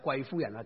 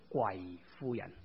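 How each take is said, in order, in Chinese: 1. 第一个音节是中调。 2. 第一个音节是低调。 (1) "不是贵夫人" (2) "叫贵夫人。你在那里跪低祈祷"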